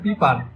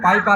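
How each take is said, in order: First: The first vowel sounds like 'ee'. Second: The first vowel sounds like 'ai'. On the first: The speaker calls it right. "আমি এটা হচ্ছে পিপার" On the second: The speaker calls it wrong. "But আমি কিন্তু পাইপার না"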